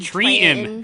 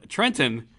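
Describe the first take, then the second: First: The second T is dropped entirely. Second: The second T is clearly pronounced. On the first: This is how locals say the town name. "There is no T, there is no second T" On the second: This is how outsiders say the town name. "is not pronounced that way there"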